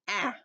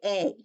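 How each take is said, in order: First: The vowel is said as its short sound. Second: The vowel is said as its letter name. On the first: The speaker calls it right. "It's a" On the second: The speaker calls it wrong. "You don't say a"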